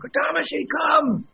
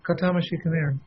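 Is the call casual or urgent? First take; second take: urgent; casual. First: The call sounds urgent and insistent. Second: The call sounds casual and not urgent.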